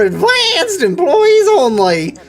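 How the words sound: It is read in a put-on feminine voice.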